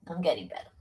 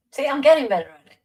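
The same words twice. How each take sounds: First: Said in the usual way. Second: Quick, higher American accent, pleased with himself; American accent again. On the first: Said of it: "after the accent demo". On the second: Shown as a demonstration. Still showing off the American accent, fast and higher. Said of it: "How's that?".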